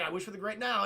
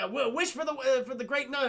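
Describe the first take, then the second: First: Said in the usual way. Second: High, stumbling excited suggestion; feed the line eagerly, pitched up; mock eager prompting. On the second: Genie prompts Aladdin to make a wish, mock eagerness.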